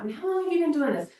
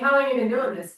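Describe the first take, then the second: First: It is asked in a warm, friendly tone. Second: It is asked in a blunt, challenging tone.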